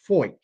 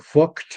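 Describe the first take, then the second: First: The name is said with an 'oy' vowel. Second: The name is said without an 'oy' vowel. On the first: The speaker calls it right. "it is actually pronounced Foyt, F O Y T" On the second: The speaker calls it wrong. "you'll be excused for thinking Fucht"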